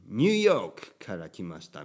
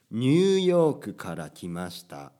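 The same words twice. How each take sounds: First: Put-on English accent on ニューヨーク; English-accented Japanese. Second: "ニューヨーク" in full Japanese syllables with final ku; Japanese pronunciation. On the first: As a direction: imitate an American learner, English "New York" inside Japanese. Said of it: "いつも言うに". (英語なまりの日本語) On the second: Shown as a demonstration. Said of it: "日本語の発音でするべきです". (日本語の発音で)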